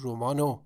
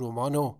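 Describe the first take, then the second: First: Only an 'o' is attached to the word. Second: Only an 'o' is attached to the word.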